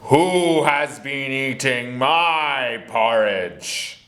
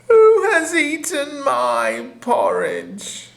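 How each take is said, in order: First: It is growled in an angry voice. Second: It is said in a crying voice.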